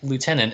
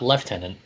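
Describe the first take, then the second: First: The word is said with an American pronunciation. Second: The word is said with a British pronunciation. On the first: The speaker calls it right. "it is lieutenant" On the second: The speaker calls it wrong. "not lieutenant, as we learned on Friday. On Friday, when the most British of our friends pronounced the word lieutenant"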